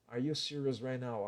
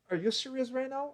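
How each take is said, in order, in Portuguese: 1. A entonação fica reta, quase sem melodia. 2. A entonação sobe e desce com melodia animada. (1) "A frase fica mais reta, sem emoção quase" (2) "Olha como minha frase fica aguda, cheia de melodia"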